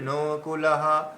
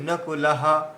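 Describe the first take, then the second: First: The word is said slowly with every vowel lengthened. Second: The word is said quickly with short vowels. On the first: The speaker calls it wrong. "তাহলে সব দীর্ঘ হয়ে যাবে" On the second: The speaker calls it right. "এই যে নকুলাহা"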